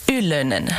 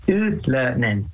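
First: Ylönen as ULL-uh-nen, low and falling; copying the surname. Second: Ylönen as ULL-uh-nen, Finnish vowels; correct surname. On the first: Host repeating the singer's surname. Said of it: "Good job". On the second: Singer correcting the host's reading of his surname. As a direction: model Ylönen with a falling tune. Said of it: "pretty good". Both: Shown as a demonstration.

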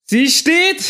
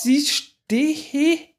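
First: High, loud cheer; Jubelschrei. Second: High, breathless excitement; thrilled disbelief, higher; aufgeregt. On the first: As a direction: shout it out in triumph. Jubel nach der Landung. (lauter, hoher Jubelschrei) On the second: Rakete steht auf dem Schiff. (ungläubig begeistert, hoch) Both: Real, not acted.

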